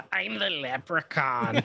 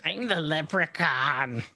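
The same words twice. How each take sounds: First: Slow, hammed-up spooky leprechaun line; mock leprechaun. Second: Slow, hammed-up spooky leprechaun line; drawn-out spooky prank voice; mock leprechaun. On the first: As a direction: drag it out to scare a sleeping kid. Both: Pretending to scare a sleeping child, slow mock spooky voice.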